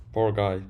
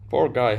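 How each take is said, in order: First: Sighing pity. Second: Said in the usual way. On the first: Real, not acted. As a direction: breathe it out with weary pity. Pitying a rude commenter.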